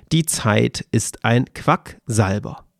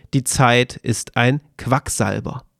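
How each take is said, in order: The two takes are said the same way.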